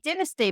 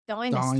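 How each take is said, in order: First: It is said the British way. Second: It is said the American way.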